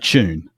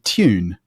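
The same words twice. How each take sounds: First: It starts with a ch sound. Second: It starts with a t followed by a y glide. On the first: "that then becomes actually a ch sound in, in many dialects, including my own" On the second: "A sort of posher English accent might be tune, ... literally a T, ... T Y"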